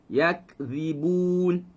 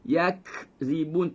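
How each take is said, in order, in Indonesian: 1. Kata yakzibun diucapkan secara alami dengan sedikit udara. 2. Kata yakzibun diucapkan dengan tambahan hembusan udara. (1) "Kita biarkan secara natural" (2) "jangan buat angin"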